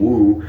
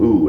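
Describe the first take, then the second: First: The word begins with a w sound. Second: The word begins with a bare vowel. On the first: The speaker calls it right. "which is what they're called" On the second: The speaker calls it wrong. "I hate that"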